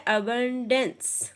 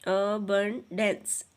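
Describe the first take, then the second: First: Said in the usual way. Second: abundance slowly split as अ... बं... dense; slow teacherly three-part abundance; syllable by syllable. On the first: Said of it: "आपने इस तरह से इसके syllables अलग". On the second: Shown as a demonstration. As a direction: sound out abundance in three separate beats. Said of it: "इस तरह से इसके सिलेबल्स अलग".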